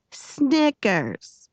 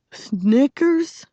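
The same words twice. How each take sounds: First: High, falling call of the name. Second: High, rising query; incredulous question. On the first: Girl trying out the nickname aloud, declaring it. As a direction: announce the name aloud, pitched up then dropping. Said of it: "she said it loud". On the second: Girl repeating the boy's new nickname, questioning. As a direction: toss the name back as a question. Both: A narrator's reading.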